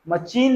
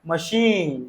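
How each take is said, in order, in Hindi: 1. बीच का व्यंजन 'ch' जैसा सुनाई देता है। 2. बीच का व्यंजन 'sh' जैसा सुनाई देता है। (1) "नहीं" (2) "मशीन नहीं मशीन"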